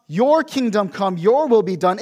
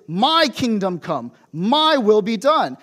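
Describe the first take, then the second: First: "Your" leaned on in both phrases; stress on your. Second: "My" drawn out and punched, slow; stress on my. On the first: Contrasts God's will with ours. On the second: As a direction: lean hard on "My" and "my", slowly. Self-centred version contrasted with God's. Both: Shown as a demonstration.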